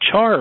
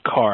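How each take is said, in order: First: The word begins with a 'ch' sound. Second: The word begins with a 'k' sound. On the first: "I don't know how you pronounce that, char or car" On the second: "I think it's car"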